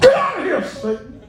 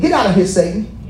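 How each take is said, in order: First: It is said in an angry, indignant tone. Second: It is said in a mild, gentle tone.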